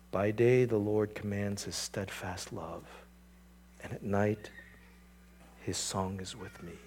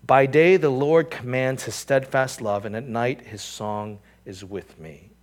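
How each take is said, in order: First: Much softer, slow tender verse; hushed reverent quote. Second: Said in the usual way. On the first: Shown as a demonstration. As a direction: breathe the verse as comfort. Writer's words to himself.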